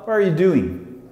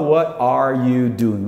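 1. As palavras são reduzidas e emendadas rapidamente. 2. Cada palavra é pronunciada completa e separadamente. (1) "O americano fala what are you doing?" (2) "Mas o americano não fala what are you doing?"

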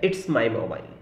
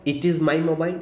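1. 'It is' को संकुचित करके एक सिलेबल बनाया जाता है, 'its'। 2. 'It is' को दो अलग शब्दों की तरह बोला जाता है। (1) "या कहें इट्स माई मोबाइल" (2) "जैसे या कहें इट इज़ माई मोबाइल"

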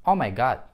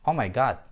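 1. Гласный краткий, а конечный d оглушённый. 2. Гласный краткий, а конечный d оглушённый.

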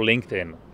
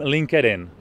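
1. Jméno se vyslovuje anglicky. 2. Jméno se vyslovuje česky. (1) "ale správně je to LinkedIn" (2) "Často slyším LinkedIn"

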